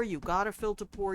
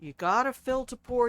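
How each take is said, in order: First: "fill" carries the weight, said at normal volume; stress on fill. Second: Louder, with "pour" punched hard at the end; loud first take landing on "pour"; stress on pour. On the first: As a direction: tap "fill" and let "pour" fall away. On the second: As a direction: lean on "pour" as the payoff. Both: Shown as a demonstration. Repeated motto, shifting stress.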